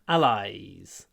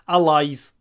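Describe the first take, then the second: First: The vowel is long with a y-glide. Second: The vowel is short and plain. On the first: The speaker calls it right. "Hold the y" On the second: The speaker calls it wrong. "It's not just allies like Russian I"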